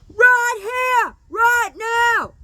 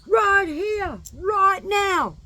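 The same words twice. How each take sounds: First: It is screamed at the top of the lungs. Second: It is said at a normal volume.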